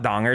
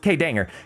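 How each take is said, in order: First: The name is said with an 'ah' vowel. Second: The name is said with an 'ay' vowel. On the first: The speaker calls it wrong. "It's not Donger" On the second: The speaker calls it right. "It's K-Danger"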